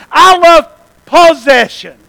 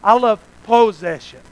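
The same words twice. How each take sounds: First: Said in the usual way. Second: "possession" repeated deliberately, voice eased down; said slower. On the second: Shown as a demonstration. Preacher repeats "possession" for congregation, deliberately slower. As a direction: spell out "possession" for the listeners. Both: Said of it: "I'll say it slower".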